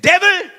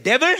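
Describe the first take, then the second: First: Loud call to the devil; shouted rebuke. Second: Said in the usual way. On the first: Retold or imitated. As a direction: call him out sharply. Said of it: "and I said". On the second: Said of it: "I said".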